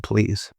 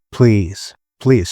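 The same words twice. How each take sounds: First: Much softer, calmed please; the wife calms down and quietly asks her husband, softly; chilled out. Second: Said in the usual way. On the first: Retold or imitated. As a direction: let the tension drop and ask gently. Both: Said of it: "she chilled out and said".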